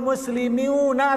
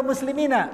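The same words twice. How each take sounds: First: "muslimiuna" said with a long u before -na; wrong case ending. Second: "muslimina" said with a long i before -na; correct case ending. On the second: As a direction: end "muslimina" in -iina, not -uuna. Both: Shown as a demonstration. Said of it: "Kenapa muslimina?".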